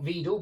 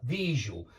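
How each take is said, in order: First: Виду with d in place of zh, lifting at the end; mistaken d sound. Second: Вижу with zh replacing d, falling; corrected zh sound. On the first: Teacher shows the wrong I form, виду with a d. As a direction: say виду with a plain d, left rising. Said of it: "not vidal". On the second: Teacher corrects the I form, вижу with zh. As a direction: say вижу low, with a buzzing zh in the middle. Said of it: "but visual". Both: Shown as a demonstration.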